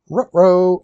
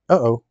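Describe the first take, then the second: First: Dog-like Scooby-Doo uh-oh, with rolled r's on ruh-roh. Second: Said in the usual way. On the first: Pretend. Streamer fumbles a piece, goes Scooby-Doo. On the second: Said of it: "Ruh-roh".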